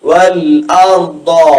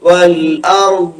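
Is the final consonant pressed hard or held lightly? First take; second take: hard; light. First: The final consonant is pressed hard like d. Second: The final consonant is held lightly without pressure. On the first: The speaker calls it wrong. "അത് ദാലായി പോയില്ലേ" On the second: The speaker calls it right. "ആ രണ്ട് ഭാഗത്തേക്ക് പോവാതെ ദാദിൽ നിൽക്കണം"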